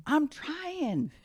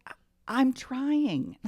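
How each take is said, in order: First: Mock dad. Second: Strained dad. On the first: Dad quoted at locked car. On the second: Retold or imitated. Dad's strained reply retold.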